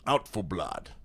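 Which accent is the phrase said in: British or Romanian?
British. It is said in a British accent. "I have to have like a British accent when I say it"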